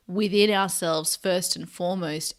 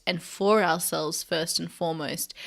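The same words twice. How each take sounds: First: Emphasis on "within"; stress on within. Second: Emphasis on "for"; stress on for. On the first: Host contrasting inner feeling with giving, stressing "within". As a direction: lean on the word "within". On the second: Host adding who it is for, stressing "for". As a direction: lean on the word "for". Contrasts for with within. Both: Real, not acted.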